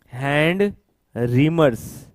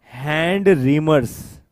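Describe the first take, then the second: No difference in how they are said.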